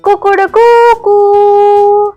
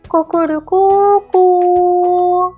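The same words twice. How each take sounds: First: The crow is loud, clear and bold. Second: The crow is somewhat louder and bolder.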